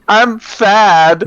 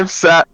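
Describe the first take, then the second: First: The s sound comes out lisped as th. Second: The s sound is said clearly. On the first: The speaker calls it wrong. "he had a really bad lisp" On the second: The speaker calls it right. "instead of saying"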